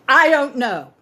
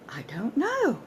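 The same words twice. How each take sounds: First: It sounds hostile, warning the listener away. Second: It sounds genuinely surprised. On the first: Back off. "which means back off" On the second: The speaker is surprised not to know it. "Genuine surprise at not knowing"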